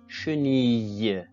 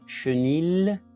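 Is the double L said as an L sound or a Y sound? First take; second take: Y sound; L sound. First: The double L is said as a Y sound. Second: The double L is said as an L sound. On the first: The speaker calls it right. "mais chenille" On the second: The speaker calls it wrong. "On ne peut pas lire chenille"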